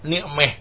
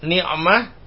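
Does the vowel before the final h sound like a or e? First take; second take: e; a. First: The last vowel is tilted toward an e sound. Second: The last vowel is an open a sound.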